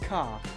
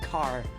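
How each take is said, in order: First: It is said in an English accent. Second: It is said in a Scottish accent. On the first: "here in England, they'd say car" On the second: "whereas I'd say car"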